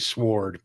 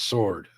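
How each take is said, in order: First: It is pronounced the way the spelling suggests. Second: It is pronounced differently from the spelling. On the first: The speaker calls it wrong. "Just reading it, it makes me want to say sword" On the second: The speaker calls it right. "but it's sword"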